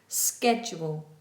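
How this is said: It begins with an sk sound. "American is sk"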